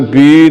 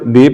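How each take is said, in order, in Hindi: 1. स्वर को लंबा खींचा जाता है। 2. स्वर छोटा और सहज है। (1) "लंबा नहीं करना, बी नहीं पढ़ना" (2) "बी पढ़ना है"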